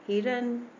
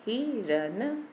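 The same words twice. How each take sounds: First: हिरन said quickly as one word, higher; quick short vowel. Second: हिरन split slowly into hi and ran; short vowel, sounded out. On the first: Teacher showing the short i matra is quick, brisk blended word. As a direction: run हिरन together with a short "hi". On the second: Teacher showing the short i matra, syllable by syllable. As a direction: sound out हिरन in two parts. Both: Shown as a demonstration. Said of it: "ये जल्दी से हमने बोल दिया".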